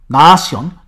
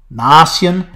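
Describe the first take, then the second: The two takes are said the same way.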